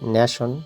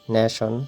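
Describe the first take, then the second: The two takes are said the same way.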